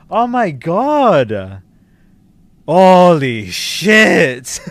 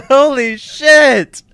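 First: Real stunned yell, higher and louder, drawn out. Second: Even higher, laughing shout, slow; laughing yell. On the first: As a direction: shout it out in total shock. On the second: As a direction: shriek it through a laugh of disbelief. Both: Real, not acted. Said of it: "sorry for yelling".

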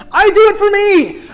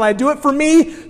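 First: Emphatic repeat. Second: Said in the usual way. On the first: Acted. Preacher repeats line emphatically.

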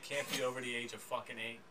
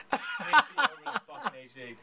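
First: Said in the usual way. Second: Loud laughing retake of the line; laughing louder repeat. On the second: Shown as a demonstration. Repeats line, second time emphatic.

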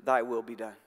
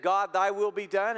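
First: Low, grave and final; a hint of a stern divine voice; God's verdict. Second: Surrendering prayer. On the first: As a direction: drop low and let it land as God's answer. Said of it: "to those whom God says". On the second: Retold or imitated. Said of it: "Those who have said".

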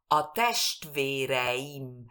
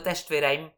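First: Very slow "A testvéreim", e and i separate; every letter pronounced. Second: Quick "testvéreim", the i swallowed; rushed reading. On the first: Teacher correcting the rapid reading, slow and exact. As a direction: draw out "A testvéreim", sounding the i. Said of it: "Cada letra tiene que ser". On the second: Teacher showing what is not understood, read too fast. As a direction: rattle off "testvéreim" without separating e and i. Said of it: "Si yo lo leo rápido". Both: Shown as a demonstration.

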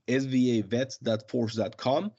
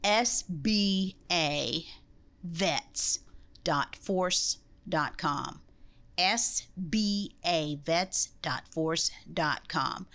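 First: Quick web address read-out; a little fast. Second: Slow, spelled out letter by letter; over enunciating. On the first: Real, not acted. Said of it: "you said it a little fast". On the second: Shown as a demonstration. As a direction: say each letter slowly and clearly. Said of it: "let me say it again 'cause you said it a little fast".

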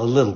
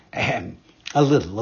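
First: Feigned cold. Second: A put-on little ahem; wolf faking a cold with a throat-clear; fake cough. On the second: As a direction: clear the throat falsely before answering. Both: A narrator's reading. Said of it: "pretending to cough".

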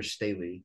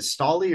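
First: "Staley" said as STAY-lee; alternative pronunciation. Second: "Staley" said as STAH-lee; alternative pronunciation. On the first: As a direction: say "Staley" with a long ay in the first syllable. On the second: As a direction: say "Staley" with an open ah in the first syllable. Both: Shown as a demonstration. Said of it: "is it Staley or Staley".

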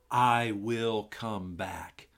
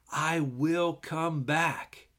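First: I will come back said slowly, each word weighed; slow emphasis. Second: I will come back drawn out slowly; slow and weighty. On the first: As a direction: lay the promise down word by word. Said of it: "look hard at verse three". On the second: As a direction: let the promise hang. Reading the verse. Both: Shown as a demonstration.

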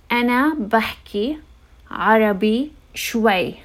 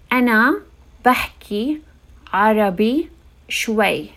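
Both takes have the same delivery.

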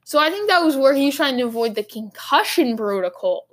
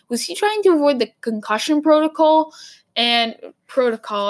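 First: Said in the usual way. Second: Put-on an accidental, light Boston accent. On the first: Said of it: "I don't know why I said that". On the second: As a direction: lean into a Boston accent on "protocol". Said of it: "like, a Boston accent".

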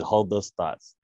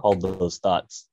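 First: Said in the usual way. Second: Slow. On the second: Retold or imitated. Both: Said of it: "Yeah, I said".

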